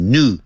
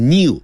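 First: "new" said as "noo"; "new" as a plain "noo"; recommended pronunciation. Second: "new" said as "nyoo"; "new" with a glide after the n; pronunciation to avoid. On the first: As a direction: say "new" with no y glide. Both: Shown as a demonstration.

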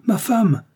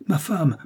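First: Much higher and louder second call; urgent shout. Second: Calling out. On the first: Charles calls his wife again, shouting urgently. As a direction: yell for her now, alarmed. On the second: Charles calls his wife down the stairs, first raised call. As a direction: call her name, still holding back. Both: A narrator's reading. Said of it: "appela Charles".

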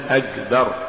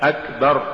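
First: "أكبر" with voiced g for k; kaf becomes hard g. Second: Said in the usual way. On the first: Shown as a demonstration. Teacher showing an error, "أكبر" said with g for kaf. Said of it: "تقرأ لحنا". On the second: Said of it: "استبدال الكاف بالجاء".

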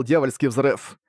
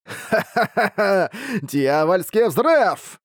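First: Said in the usual way. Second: Slow cackling villain cry; evil monster boss. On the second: Acted. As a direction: cackle then roar the spell name. Monster boss casting spell.

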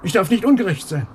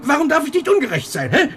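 First: Bitter echo. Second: Much higher, pleading and outraged; the question bursts out of him; agitated outburst. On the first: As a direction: repeat her words back, sour and mocking. Echoes wife's rebuke back. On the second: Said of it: "Du bist außer dir". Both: Acted.

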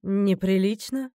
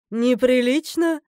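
First: Slow, contained challenge; challenging echo. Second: Louder, drawn-out indignant challenge; challenging. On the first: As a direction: repeat the word slowly, holding back indignation. (медленно и сдержанно, с вызовом) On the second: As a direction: throw the word back loudly and slowly. (громко, с вызовом, нараспев) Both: A narrator's reading. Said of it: "с вызовом спросила богиня".

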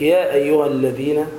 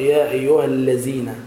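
First: الذين with the tongue tip between the teeth on ذ; interdental dhal. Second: الذين said with z for ذ, "allazeena"; common misreading. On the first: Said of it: "طرف اللسان في حرف الذال". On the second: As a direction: imitate the mistake, a plain z in الذين. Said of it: "بعض الناس يقرأ". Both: Shown as a demonstration.

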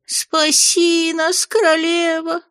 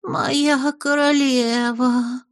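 First: Much higher, very slow howled plea; howling plea. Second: Higher, very slow breathy awe; breathless murmur. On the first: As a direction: howl it out in despair. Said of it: "Бес ... провыл". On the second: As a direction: breathe it out in adoration. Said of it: "пробормотал с придыханием". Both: Acted.

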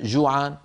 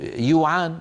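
First: Said in the usual way. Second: "يوعان" starting with y instead of j; Gulf-style y in "يوعان"; jim turned to ya. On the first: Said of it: "بدل جوعان". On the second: Shown as a demonstration. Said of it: "إبدال الجيم ياء".

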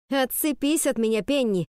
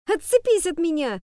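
First: Firmer but voice shaking; shaky voice. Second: High thin squeak of a shout; squeaky failed shout. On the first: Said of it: "получилось громче, но у меня дрожал голос". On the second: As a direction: try to shout but only squeak. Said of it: "Так, писк какой-то". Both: Acted.

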